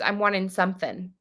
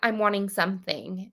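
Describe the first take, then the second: First: Something is said as sumfin, with an f. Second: Something is said with a clear th sound. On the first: "S U M F I N apostrophe" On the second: "it's not like I'm wanting something"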